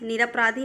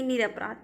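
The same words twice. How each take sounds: First: निरपराधी with an added long ee; wrong form निरपराधी. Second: निरपराध ending on the consonant; correct form निरपराध. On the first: Teacher rejects the wrong word, निरपराधी ending in ee. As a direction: end निरपराधी on -dhee. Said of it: "नहीं". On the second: Teacher corrects students, निरपराध without the ee. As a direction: say निरपराध with no final ee. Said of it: "निरपराधी नहीं". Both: Shown as a demonstration.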